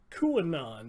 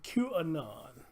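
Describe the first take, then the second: First: Said in the usual way. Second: QAnon diucapkan "kyu-e-non", jelas per suku kata; their pronunciation. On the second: Shown as a demonstration. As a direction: QAnon as "kyoo-uh-non", each syllable clear. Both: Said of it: "That's how they pronounce it".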